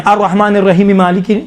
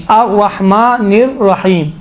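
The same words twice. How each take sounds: First: الرحمن الرحیم مالکی joined in one breath; no pause after الرحیم; run on without stopping. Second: الرحمن الرحیم slow, with long vowels and a full stop; measured recitation, pausing after الرحیم; stopping at verse end. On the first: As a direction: link الرحیم straight into مالکی as "rahimi-maliki". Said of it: "نہیں". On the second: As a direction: draw out الرحیم and halt. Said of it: "رکتے جائیں". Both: Shown as a demonstration.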